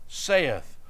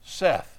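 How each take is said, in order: First: The word sounds like 'say-ith'. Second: The word sounds like 'Seth'. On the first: The speaker calls it wrong. "Most Southerners pronounce that saith" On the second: The speaker calls it right. "The correct pronunciation is Seth"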